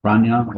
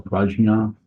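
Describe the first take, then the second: First: Prajna said as "PRAHN-yah"; alternate pronunciation. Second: Prajna said as "PRAHZH-nah"; alternate pronunciation. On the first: Teacher offers listeners one pronunciation of a Buddhist term, Prajna as "PRAHN-yah". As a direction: say Prajna with a "ny" in the middle. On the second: Teacher offers listeners another pronunciation of the term, Prajna as "PRAHZH-nah". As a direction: say Prajna with a "zh" before the n. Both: Shown as a demonstration. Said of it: "however you pronounce it".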